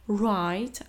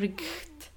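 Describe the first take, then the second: First: The gh is silent, no rasping sound. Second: A rasping ch sound comes before the t. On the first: The speaker calls it right. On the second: The speaker calls it wrong.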